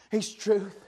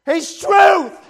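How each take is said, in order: First: Softer, lower, almost under the breath; quiet reverent "he's truth"; hushed. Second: "He's truth" higher and loud; loud proclaiming "He's truth"; shouted. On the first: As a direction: say it softly. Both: Real, not acted. Quiet then shouted repeat.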